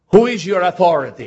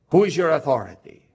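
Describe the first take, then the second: First: Loud, ringing question with WHO hit hard; emphatic preached question. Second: Steadier repeat, "Who" still stressed but less loud; calmer repeat. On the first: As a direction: call out "Who" to the whole church. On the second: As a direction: ask it again, gently pressing. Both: Acted.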